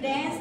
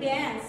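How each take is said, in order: The two takes are said the same way.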